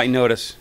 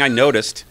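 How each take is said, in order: First: The final sounds of the word are dropped. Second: The final sounds of the word are fully pronounced. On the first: "I personally drop the ends off of words" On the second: "instead of saying"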